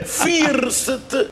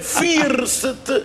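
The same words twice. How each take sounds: First: The word is read out just as spelled. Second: The word is read out just as spelled.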